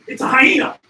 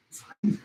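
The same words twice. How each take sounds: First: Louder, alarmed call of the name; startled exclamation. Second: Said in the usual way. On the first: Real, not acted. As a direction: blurt out the warning. Spotting the hyena.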